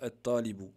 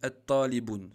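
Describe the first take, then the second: First: The word ends on a vowel, without n. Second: The word ends with an added n sound. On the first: The speaker calls it right. "Il faut dire at-talibu, enlever le tanwin" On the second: The speaker calls it wrong. "ça c'est pas juste"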